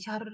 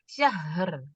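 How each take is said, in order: First: The h sound is rushed and cut short. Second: The h sound is drawn out and flowing. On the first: The speaker calls it wrong. "jangan cepet-cepet jadi syahr gitu" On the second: The speaker calls it right. "hak sukunnya tetap dialirkan"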